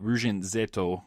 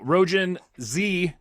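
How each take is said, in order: First: The title is said with Japanese sounds. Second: The title is said with English sounds. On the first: The speaker calls it right. "if you're trying to pronounce it correctly" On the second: The speaker calls it wrong. "not even attempting to pronounce it in the proper Japanese way"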